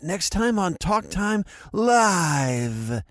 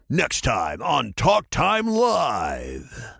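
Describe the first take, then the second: First: It is said in Gohan's hesitant voice. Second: It is said in a dramatic narrator voice.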